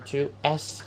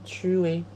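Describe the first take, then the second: First: An s sound is pronounced after tu. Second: No s sound is pronounced after tu. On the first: The speaker calls it wrong. "Bukan tu s" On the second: The speaker calls it right. "tapi tue"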